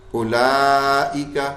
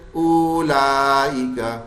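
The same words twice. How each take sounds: First: اولائکا read slowly, the added و left silent; recitation. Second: اولائکا read slowly, the silent و sounded; wrong reading. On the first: Teacher reciting اولائکا for the class, slowly. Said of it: "اب یہ واو زائد ہے". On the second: Teacher showing how people misread اولائکا. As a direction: draw out the mistaken اولائکا. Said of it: "لوگ اس کو کیسے پڑھ لیتے ہیں". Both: Shown as a demonstration.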